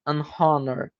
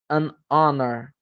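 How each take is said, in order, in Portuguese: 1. O H no início é pronunciado. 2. O H no início é mudo. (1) "mas nenhuma não é" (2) "Então não tem o som de H. Essas palavras é"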